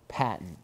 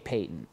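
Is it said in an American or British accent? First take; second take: American; British. First: It is said in an American accent. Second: It is said in a British accent.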